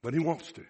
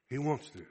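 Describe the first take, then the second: First: "he" lifted with a rise; stress on he. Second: "wants" stressed, falling. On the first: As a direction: lean on "he", then rise. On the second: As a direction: press down on "wants". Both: Shown as a demonstration. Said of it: "That's potential".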